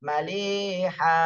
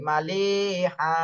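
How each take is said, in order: Both takes have the same delivery.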